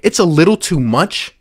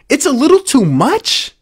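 First: Said in the usual way. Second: Incredulous echo. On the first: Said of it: "This is a quote from Ben Simmons". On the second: Real, not acted. Mocking the quote in disbelief.

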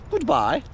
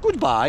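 First: High, mock-posh goodbye; a lightly put-on upper-class farewell. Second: Said in the usual way. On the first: Imagining the dog saying goodbye in a posh voice. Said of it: "in a real posh voice was like". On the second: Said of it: "like that".

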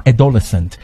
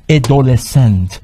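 First: Said in the usual way. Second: "ادولسنت" slowly, syllable by syllable; slow model pronunciation. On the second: Shown as a demonstration. Teacher has students read along, slow "ادولسنت" in separated syllables. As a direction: stretch out each syllable of "ادولسنت". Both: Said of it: "بخون با من".

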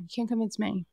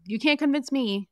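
First: Said in the usual way. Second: Put-on jab the can't like a kid refusing; mock stubborn insistence. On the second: Castmate refusing to be convinced, can't punched. Acted quote of Jax, repeated.

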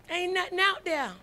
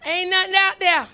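First: Said in the usual way. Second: Loud, punched warning; emphatic warning. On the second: Acted. Preacher echoing mama's warning to Erica, loud and emphatic. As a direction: proclaim it like mama did.

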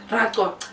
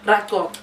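Both takes have the same delivery.

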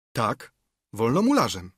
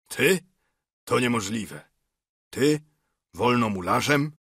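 First: „wolnomularzem” as a statement, falling at the end; firm confirmation. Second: Incredulous questioning, key words pitched up; acted disbelief. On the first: Narrator assures Fortunato he is a mason, „wolnomularzem” firmly falling. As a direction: answer with „wolnomularzem” settled, no question in it. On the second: Fortunato doubts his friend is a freemason, disbelieving. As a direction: question it in mild astonishment. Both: A narrator's reading.

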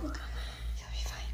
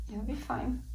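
First: Slow soft whisper close to her ear; whispered reassurance. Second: Said in the usual way. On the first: Real, not acted. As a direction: hush her gently, very slowly. Mother soothing crying daughter.

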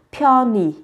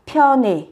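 First: Pyoni with final "ee" vowel; ending as I. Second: Pyone with final "e" vowel; ending as E. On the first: Teacher summing up the options for learners, pyoni ending in "ee". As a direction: say pyoni with "nee" at the end. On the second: Teacher summing up the options for learners, pyone ending in "e". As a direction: say pyone with "neh" at the end. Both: Shown as a demonstration. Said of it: "phát âm là thành pyone hoặc là pyoni".

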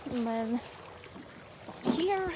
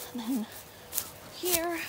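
No difference in how they are said.

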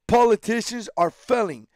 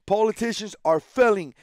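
No difference in how they are said.

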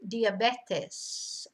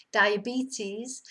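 First: "diabetes" slowly as dee-ah-BEH-tes; Spanish pronunciation. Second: "diabetes" as die-uh-BEE-teez, rising at the end; English pronunciation. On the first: Teacher contrasting with English, "diabetes" as slow dee-ah-BEH-tes. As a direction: give "diabetes" Spanish vowels, falling at the end. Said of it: "Spanish they say". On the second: Teacher recalling the English word, "diabetes" as die-uh-BEE-teez. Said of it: "say it in English now". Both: Shown as a demonstration.

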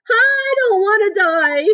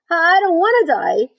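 First: Very high, loud, drawn-out shriek; screamed. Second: High, loud, drawn-out whine; tearful moan. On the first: Wilbur throwing himself to the ground, screaming. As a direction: scream it out in full tantrum. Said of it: "screamed Wilbur". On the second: Wilbur bursts into tears at the news, moaning. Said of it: "he moaned". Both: A narrator's reading.

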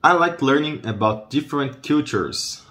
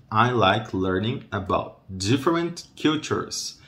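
First: Said in the usual way. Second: I like learning about different cultures, spaced word by word; slow right down, separating each word; slow modelling. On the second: Shown as a demonstration. Teacher models different cultures for learners, slow modelling. Same sentence slowed word by word.

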